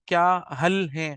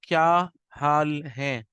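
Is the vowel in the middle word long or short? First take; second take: short; long. First: The vowel in the middle word is cut short. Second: The vowel in the middle word is drawn out long. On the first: The speaker calls it wrong. "मैंने आपसे इस तरह नहीं बोला" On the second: The speaker calls it right. "मैंने क्या में या को खींचा है, हाल में मैंने हा को खींचा है।"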